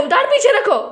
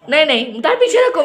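First: Much higher, insistent order; high exasperated call to her son; sharper repeat. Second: Said in the usual way. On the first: Real, not acted. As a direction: raise the pitch as you repeat the order.

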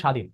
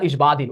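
First: স্বাধীন as sha-dhin, b silent; correct pronunciation. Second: ইসবাধীন with the silent b sounded, is-ba-dhin; wrong pronunciation. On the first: Teacher gives students the right form, স্বাধীন with silent b. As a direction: say স্বাধীন with no b after the sh. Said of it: "উচ্চারণ এরকম উচ্চারণ হবে". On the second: Teacher shows students the mistake, b pronounced in ইসবাধীন. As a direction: say ইসবাধীন with a full "ba" after the s. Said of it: "এমন হবে না". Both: Shown as a demonstration.

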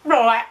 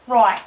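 First: "Right" said "roit" with a hard t, loud; Australian accent. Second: "Right" as Aussie "roit", loud; Australian accent. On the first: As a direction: clip "Right" Aussie-style. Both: Pretend. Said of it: "in that accent".

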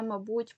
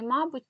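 First: Мабуть stressed on БУТЬ, the last syllable; stress on second syllable. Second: Мабуть stressed on МА, the first syllable. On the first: Teacher showing students the other allowed stress, мабуть stressed on БУТЬ. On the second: Teacher showing students a double stress, мабуть stressed on МА. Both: Shown as a demonstration. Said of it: "які мають подвійний".

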